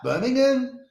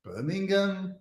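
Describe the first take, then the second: First: Birmingham? with a higher, Brummie-style lilt; mock Birmingham accent. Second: Said in the usual way. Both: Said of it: "They talk like that?".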